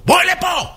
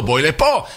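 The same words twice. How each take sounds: First: High, strained angry holler; acted furious yell; roar at secretary. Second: Said in the usual way. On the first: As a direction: bellow a summons in a high voice. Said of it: "ונותן שאגה". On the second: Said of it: "קורא למזכירה שלו".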